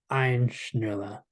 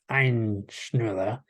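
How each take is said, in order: First: The first word has only one syllable. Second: The first word has a faint second syllable. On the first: The speaker calls it wrong. "It's incorrect" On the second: The speaker calls it right. "with either the second syllable implied or just really subtle"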